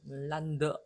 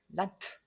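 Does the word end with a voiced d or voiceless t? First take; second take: voiced d; voiceless t. First: The final consonant is a voiced d. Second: The final consonant is a voiceless t. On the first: The speaker calls it wrong. "란드 이렇게 안 돼" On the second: The speaker calls it right. "무성음으로 그냥 차내듯이"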